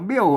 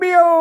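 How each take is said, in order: First: It carries the ordinary standard tone. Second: It carries the special local-style tone. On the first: "มันโทปกติ" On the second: "เสียงโทพิเศษอะโทเมือง"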